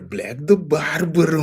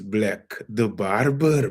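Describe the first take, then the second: First: "Black the Barber" said high and in the island accent. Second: Said in the usual way. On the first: Shown as a demonstration. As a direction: say it the way people from his island talk. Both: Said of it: "This is our accent".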